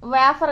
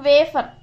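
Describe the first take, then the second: First: The first vowel is an open 'ah' sound. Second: The first vowel sounds like 'way'. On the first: The speaker calls it wrong. "వేఫర్ కాదు" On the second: The speaker calls it right. "వే లాగా వాడుతున్నాం"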